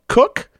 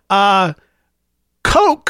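First: It rhymes with book. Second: It sounds like the word coke. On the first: "to rhyme with book like mine" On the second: "Like the soft drink"

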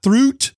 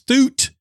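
First: It is said with an r sound. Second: It is said without an r sound. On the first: The speaker calls it wrong. "not throot" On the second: The speaker calls it right. "It's thoot"

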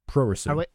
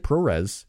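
First: The word ends with a faint u sound. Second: The word ends on the final consonant. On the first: "and then put a U at the end" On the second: "Just say ProRes"

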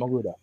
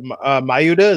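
First: The middle consonant sounds like an L. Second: The middle consonant sounds like a Y.

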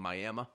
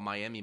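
First: The word is said in a Southern accent. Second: The word is said in a neutral accent.

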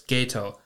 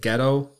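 First: The first vowel sounds like 'ay', as in gay. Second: The first vowel sounds like 'eh', as in ghetto. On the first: The speaker calls it right. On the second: The speaker calls it wrong.

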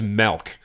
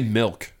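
First: The vowel is an 'e' sound, like 'melk'. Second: The vowel is an 'i' sound, as in 'ilk'.

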